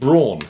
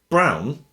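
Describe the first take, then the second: First: The name is said with an English pronunciation. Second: The name is said with a German pronunciation. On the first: "Or it's pronounced Braun" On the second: "which I think is the German pronunciation for this"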